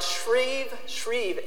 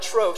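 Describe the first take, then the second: First: The word has an 'ee' vowel sound. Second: The word has an 'oh' vowel sound. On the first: The speaker calls it right. "if I pronounce it right, Shrieve" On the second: The speaker calls it wrong. "not Shrove"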